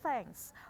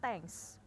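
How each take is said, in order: First: The word begins with a th sound. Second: The word begins with a plain t sound. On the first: The speaker calls it right. "Ini juga bacanya thanks" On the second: The speaker calls it wrong. "bukan thanks"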